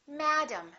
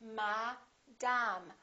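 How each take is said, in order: First: The first vowel is stressed, the second reduced. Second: Both vowels are fully pronounced with equal weight. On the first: The speaker calls it right. "one vowel is stressed and one vowel is reduced" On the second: The speaker calls it wrong. "In some languages, they say"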